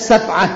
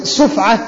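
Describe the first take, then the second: First: The first syllable has the vowel a. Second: The first syllable has the vowel u. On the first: "يجوز الفتح" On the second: "بضم السين"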